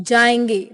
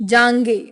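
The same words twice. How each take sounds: Both takes have the same delivery.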